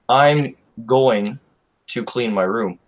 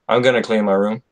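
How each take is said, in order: First: Going to is said fully as two words. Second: Going to is shortened into gonna. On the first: This is a formal way of speaking. "is more formal" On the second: This is a relaxed, informal way of speaking. "just informal English"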